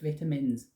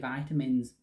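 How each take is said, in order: First: It is said with a British pronunciation. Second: It is said with an American pronunciation.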